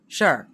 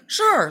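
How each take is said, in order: First: It sounds dismissive and uninterested. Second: It sounds easygoing and friendly.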